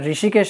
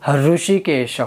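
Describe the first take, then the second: First: It starts with a plain r sound. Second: It starts with an h before the r. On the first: The speaker calls it wrong. "सिर्फ ऋषिकेश या ऋषिकेश नहीं होगा" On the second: The speaker calls it right. "ह के साथ र"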